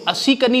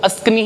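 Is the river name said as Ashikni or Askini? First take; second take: Ashikni; Askini. First: The name is said with a 'shi' sound. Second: The name is said with a plain 's' sound. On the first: The speaker calls it wrong. "इसको अशिकनी मत बोल देना" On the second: The speaker calls it right. "इसको अस्कनी ही बोला जाएगा"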